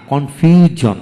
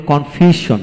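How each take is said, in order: First: কনফিউশন with a voiced "j/z" sound, "kon-fyu-jon"; corrected pronunciation. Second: কনফিউশন with a "sh/s" sound before -on; common mispronunciation. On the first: Teacher correcting learners' usual habit, কনফিউশন said with "j". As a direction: voice the s in কনফিউশন as a buzzing j. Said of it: "এখানে আমরা বলি কনফিউশন না". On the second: Teacher showing learners how people mistakenly say it, কনফিউশন with "sh". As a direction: say কনফিউশন with an unvoiced hiss, "kon-fyu-shon". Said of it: "আমরা বলি কনফিউশন না". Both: Shown as a demonstration.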